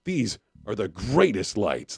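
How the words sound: It is said in an angry tone.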